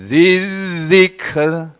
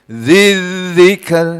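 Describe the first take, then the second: Both takes have the same delivery.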